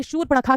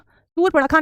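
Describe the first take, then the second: First: शूर्पणखा begun with "sh"; correct form. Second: शूर्पणखा begun with a plain "s"; wrong form. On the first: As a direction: say शूर्पणखा as "shoor-pa-na-khaa". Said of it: "तो आप कहेंगे शूर्पणखा कहलाता है". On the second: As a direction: say शूर्पणखा as "soor-panakha", higher. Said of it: "शूर्पणखा नहीं होता". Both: Shown as a demonstration.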